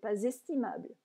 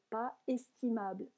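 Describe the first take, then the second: First: A z sound links pas to the next word. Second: The s of pas is silent, no link. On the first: "il faudrait faire une liaison" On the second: "Je ne fais pas la liaison volontairement"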